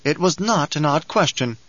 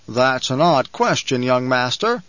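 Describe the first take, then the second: First: "not" pressed in "It was not an odd question"; a curt comeback that leans on "not"; brittle riposte. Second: Lightly voiced banker, slowed on odd; a hint of the banker, stretching odd slowly; banker's voice. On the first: Acted. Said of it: "the brittle riposte quality". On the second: Banker speaks in his own voice.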